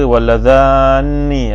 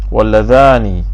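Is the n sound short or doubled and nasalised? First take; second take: doubled; short. First: The n sound is doubled and nasalised. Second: The n sound is short and single.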